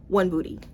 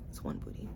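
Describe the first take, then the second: First: Said in the usual way. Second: "It's one booty" whispered, breathy and unvoiced; whispered aside. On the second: Shown as a demonstration. Reviewer downgrading her rating, whispering to herself. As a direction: whisper it to yourself as a correction.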